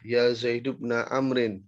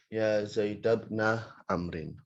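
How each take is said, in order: First: Zaid ends with a short u vowel. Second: Zaid ends with a short a vowel. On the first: "Boleh nanti munadanya itu dibaca dhammah" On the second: "Atau nanti dibaca fathah"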